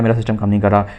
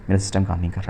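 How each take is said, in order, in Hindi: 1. तेज़ और बेचैनी से बोला जाता है। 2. धीरे और शांति से बोला जाता है। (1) "ऐसे नहीं" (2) "साइलेंटली कहो"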